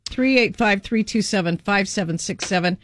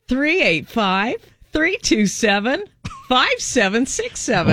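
First: It is said in a plain, neutral voice. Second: It is said with a big smile.

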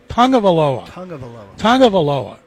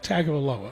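First: The first syllable sounds like tongue. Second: The first syllable does not sound like tongue. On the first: The speaker calls it right. "It's tongue, T-O-N-G-U-E" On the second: The speaker calls it wrong. "it's not Tagovailoa"

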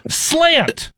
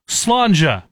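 First: The word ends with a plain 't' sound. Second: The word ends with a 'cha' sound. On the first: The speaker calls it wrong. "knowing how to pronounce that is probably key, because Jack goes" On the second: The speaker calls it right. "we wanted everyone to say Slanja"

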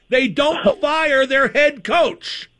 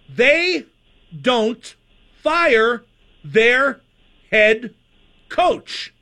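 First: It is spoken at a normal conversational pace. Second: It is spoken very slowly and deliberately.

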